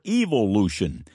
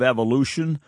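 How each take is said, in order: First: The word is said in a British accent. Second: The word is said in an American accent.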